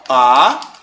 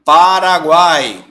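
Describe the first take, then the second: First: "Paraguai" as PA, RA, GUAI with long pauses; syllable separation. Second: "Paraguai" slow and unbroken; whole-word example. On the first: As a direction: split "Paraguai" into three isolated syllables. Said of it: "vamos separar o Paraguai". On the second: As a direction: draw out "Paraguai" as one word. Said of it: "esse encontro vocálico aí de três vogais". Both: Shown as a demonstration.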